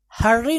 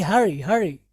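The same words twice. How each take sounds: First: हर्री with a doubled, rolled "r"; mistaken pronunciation. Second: हरी with a single light "r"; correct pronunciation. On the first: Teacher shows what to avoid, हर्री with double "r". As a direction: lean on the "rr" in हर्री. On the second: Teacher corrects students, हरी with one light "r". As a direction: keep the "r" short in हरी. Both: Shown as a demonstration. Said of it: "हर्री नहीं".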